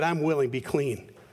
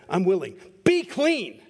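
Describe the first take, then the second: First: It is said calmly, without much force. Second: It is said forcefully, like an exclamation.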